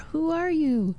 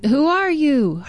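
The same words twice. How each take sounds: First: The question returns much softer; faint echo. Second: Put-on boy calling high into the woods. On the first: Retold or imitated. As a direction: echo it back from far away. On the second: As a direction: shout the question into the trees. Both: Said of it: "He heard an echo".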